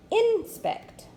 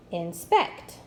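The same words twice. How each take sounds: First: "Inspect." with IN high and strong; stress on first syllable. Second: "Inspect." with SPECT punched; light in, stressed SPECT in "Inspect."; stress on second syllable. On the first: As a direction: hit IN in "Inspect.", let spect fall away. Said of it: "That doesn't quite sound right". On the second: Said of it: "with the accent on the second syllable". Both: Shown as a demonstration.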